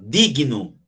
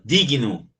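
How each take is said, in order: First: Digno said g then n apart, dig-no; teacher repeats digno to show the split between g and n; digno again, separated. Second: Digno with g and n split, di-gui-no; teacher stretches digno so the g stands alone, di-g-no; separated digno. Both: Shown as a demonstration. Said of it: "vê que eu já separo".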